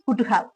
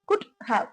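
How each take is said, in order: First: The two words are run together as one. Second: The two words are said apart, fully. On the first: "சேர்த்து சொல்லும்போது இந்த மாதிரி சொல்றோம்" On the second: "பிரிச்சு சொல்லும்போது"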